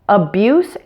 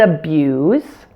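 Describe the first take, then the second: First: The word ends with a hissing S sound. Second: The word ends with a buzzing Z sound. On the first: It is used as a noun. "the S E endings of nouns and adjectives will be pronounced with an S sound" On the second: It is used as a verb. "the S E endings on the verbs will be pronounced with a Z sound"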